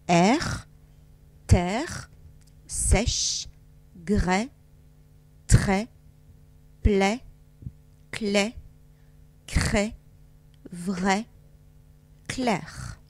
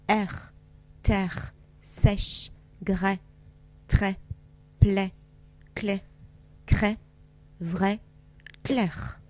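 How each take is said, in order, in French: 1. Les mots sont lus plus lentement. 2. Les mots sont lus plus vite. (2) "Un tout petit peu plus vite maintenant"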